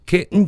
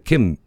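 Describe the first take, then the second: First: The word ends with an n sound. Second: The word ends with closed lips, an m sound. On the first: The speaker calls it wrong. "けんじゃなくて" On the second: The speaker calls it right. "口をパッとつぐんでください"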